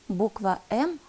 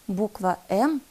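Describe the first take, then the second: No difference in how they are said.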